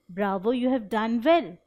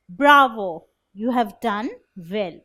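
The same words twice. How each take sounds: First: It is said flatly, without excitement. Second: It is said with excited, applauding praise.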